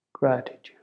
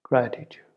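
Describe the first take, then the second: No difference in how they are said.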